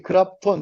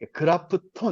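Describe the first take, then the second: First: The f runs straight into the t. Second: An extra vowel separates the f from the t. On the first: Koreans who are good at English pronunciation say it this way. "그раф톤 이렇게 못 붙여요" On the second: Japanese speakers read it this way. "그라프톤 이렇게 읽지"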